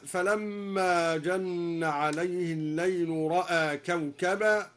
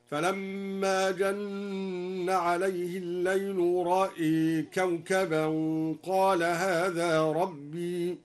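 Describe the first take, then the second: First: "رأى" with open vowels; standard reading. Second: "رأى" with the hamza vowel bent toward e, slow melodic chant; imala on hamza. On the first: Teacher quoting the standard reading, chanted. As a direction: say ra'a plainly. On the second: Teacher demonstrates al-Duri's imala, slow melodic tarteel. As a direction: sing "رأى" slowly, leaning the hamza vowel. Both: Shown as a demonstration. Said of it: "أمال الدوري الهمزة فقط هكذا".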